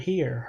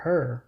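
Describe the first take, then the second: First: Said in the usual way. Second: "her" as the local way of saying "here"; Saint Louis pronunciation. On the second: Shown as a demonstration. Explaining a wordplay, "here" pronounced as Saint Louis "her". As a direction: turn "here" into "her", rhyming with "fur". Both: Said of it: "how they say the word here".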